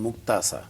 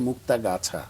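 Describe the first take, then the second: First: The name is shortened, the 'ga' syllable dropped. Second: The full name is said with the 'ga' syllable. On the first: "উনি বলতেন মুক্তাসা। গাটা নেই" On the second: "আমার জন্মস্থানের নামটি হচ্ছে মুক্তাগাছা"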